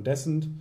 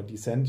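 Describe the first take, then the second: First: "Descent" stressed on the first syllable, DESS-ent. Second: "Descent" stressed on the second syllable, dee-SENT. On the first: Offering one way to say the game title, DESS-ent. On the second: Offering the other way to say the game title, dee-SENT. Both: Shown as a demonstration. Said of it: "je nachdem, wie man es ausspricht".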